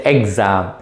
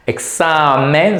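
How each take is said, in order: First: "exam" as the English word, without the Spanish ending; "exam" with an English X, as what not to say; English-style exam. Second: "Examen" with the X softened towards an S sound; slow model of "Examen", S sound in the X. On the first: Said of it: "so don't say exam". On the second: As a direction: say "Examen" slowly, hissing the X as S. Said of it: "the X must sound like ... the S". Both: Shown as a demonstration.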